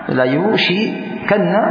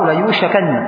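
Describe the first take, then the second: First: The vowel after the sh sound is i. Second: The vowel after the sh sound is a. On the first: Allah will surely cause it. "Di sini bi kasri syin" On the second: Allah will surely hasten it. "boleh dibaca bi fathi syin"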